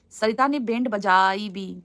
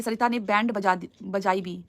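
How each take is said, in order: First: Drawn-out "band बजाई", word by word; slow puzzled rereading. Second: Said in the usual way. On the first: Real, not acted. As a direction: sound out "band बजाई भी" slowly. Rereads comment, puzzling over wording.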